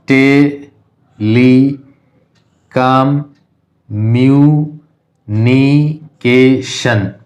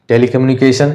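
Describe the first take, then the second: First: telecommunication extremely slow as te, li, com, myu, ni, ke, shan; teacher stretching telecommunication into seven isolated beats; syllable by syllable. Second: Said in the usual way. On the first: Shown as a demonstration. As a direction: sound out telecommunication with a long gap after each syllable. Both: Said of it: "distinguish करके देख लेते हैं".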